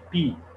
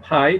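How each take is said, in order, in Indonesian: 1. Bunyi vokalnya seperti 'ee'. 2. Bunyi vokalnya seperti 'eye'. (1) "tapi P" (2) "bukan pi"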